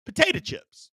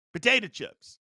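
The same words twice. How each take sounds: First: Potato chips squealed much higher as a reveal; excited reveal. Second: Said in the usual way. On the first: Acted. Host to live viewers, high excited reveal. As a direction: pop the answer up high. Announcing number ten item.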